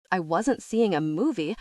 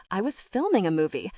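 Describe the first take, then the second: First: "seeing" stressed with a falling tune. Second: "filming" stressed, corrective fall. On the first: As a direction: lean on "seeing" to reject it. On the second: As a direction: hit "filming" to correct him. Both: A narrator's reading.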